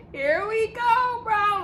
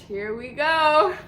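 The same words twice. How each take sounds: First: Higher, slow, half-laughing; laughing dread. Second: Slow, stretched mock dread; drawn-out dread. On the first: Retold or imitated. Retelling the edible kicking in, laughing slowly. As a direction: laugh through the words as the panic sets in. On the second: Telling friends how the high kicked in, slow dread. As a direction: drag out the words as the high hits. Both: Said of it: "And I'm like".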